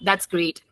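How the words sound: It is said in a flat, sarcastic tone. The speaker does not really think it is great. "More sarcasm"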